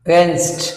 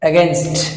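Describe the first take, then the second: The two takes are said the same way.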